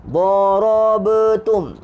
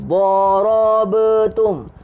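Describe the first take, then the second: The two takes are said the same way.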